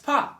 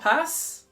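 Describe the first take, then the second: First: The final S is not pronounced. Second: The final S is pronounced. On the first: The speaker calls it right. "the S in this pas is not pronounced at all" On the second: The speaker calls it wrong. "It's not pass"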